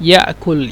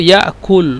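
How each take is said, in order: The two takes are said the same way.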